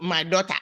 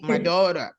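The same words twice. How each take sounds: First: It is said with a Ghanaian accent. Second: It is said with an American accent. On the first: The speaker calls it wrong. "don't say uh, uh, my daughter" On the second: The speaker calls it right. "Say my daughter"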